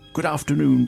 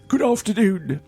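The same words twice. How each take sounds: First: It is said in the speaker's ordinary voice. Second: It is said in a put-on formal butler voice.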